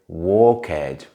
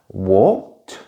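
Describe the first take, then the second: First: The ending is an extra syllable, like ed. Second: The ending is a single t sound. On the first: The speaker calls it wrong. "A very common mistake is to pronounce it like ed" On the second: The speaker calls it right. "Usually the ending is pronounced like a t sound"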